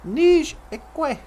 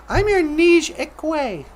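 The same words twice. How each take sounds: First: Nij Ikwe repeated on its own, each syllable given clearly; teaching the word. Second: Said in the usual way. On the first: Shown as a demonstration. Teaching viewers the Ojibwe word, carefully pronounced. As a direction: say Nij Ikwe as a word lesson, niizh ee-kweh. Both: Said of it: "you call her your Nij Ikwe".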